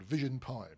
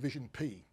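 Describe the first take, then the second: First: Pi is said with an English pronunciation. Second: Pi is said with a French pronunciation.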